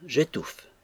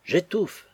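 First: Said in the usual way. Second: Choking with joy, rising. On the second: A narrator's reading. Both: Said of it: "suffoquer de joie".

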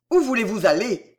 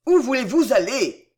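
First: Louder exclaimed question; crying out. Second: Louder, higher repeated cry; crying out, insistent. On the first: Bridegroom following his departing bride, crying out. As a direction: call it after someone leaving. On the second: Bridegroom calling after his silent bride, crying out insistently. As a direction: press the question harder, raising the voice. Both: A narrator's reading. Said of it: "s'écria Delville en la suivant".

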